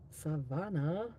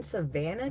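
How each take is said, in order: First: Savannah with a broad "ah" in the middle; drawn-out Savannah. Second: Said in the usual way. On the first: Acted. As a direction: stretch Savannah slowly, "suh-VAH-nuh". Says place name two ways.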